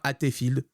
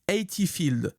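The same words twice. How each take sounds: First: The name is pronounced with French sounds. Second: The name is pronounced with English sounds. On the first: The speaker calls it wrong. "En français, ça devient Hatefield" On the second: The speaker calls it right. "il faut utiliser la bonne prononciation"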